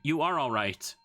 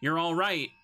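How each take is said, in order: First: "You are" is said as two full words. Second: "You are" is contracted to "you're". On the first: The speaker calls it wrong. "That is the weirdest way you could have said that" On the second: The speaker calls it right. "Instead of saying"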